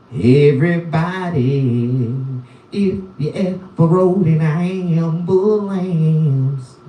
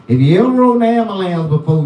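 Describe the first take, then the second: First: Slow drawn-out call. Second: Quick throwaway pace; fast rattled-off. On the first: Comic calling out his catchphrase to viewers, slow and drawn out. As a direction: stretch every word like a hype man. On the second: Comic repeating his catchphrase fast and offhand. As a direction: rush the line out. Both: Acted.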